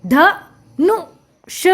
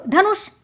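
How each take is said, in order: First: ध, नु, ष as three separate sounds; sounding out. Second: Said in the usual way. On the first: Shown as a demonstration. Teacher spelling out a word for children, sound by sound. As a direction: break it up with pauses: ध... नु... ष. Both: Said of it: "हमने इसका उच्चारण किया".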